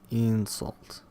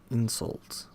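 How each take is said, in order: Both takes have the same delivery.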